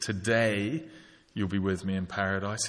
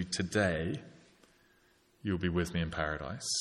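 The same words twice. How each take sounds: First: Today lifted with a rising tune, then the rest of the line evenly; stress on Today. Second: Said in the usual way. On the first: Shown as a demonstration. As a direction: lean on Today to make the promise immediate. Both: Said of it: "It's an immediate promise".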